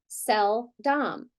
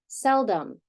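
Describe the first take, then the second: First: The second vowel is a full short o. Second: The second vowel is a reduced uh sound. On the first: The speaker calls it wrong. "if we decoded it using only our phonics knowledge, we would read it like this" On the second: The speaker calls it right. "Got that uh sound"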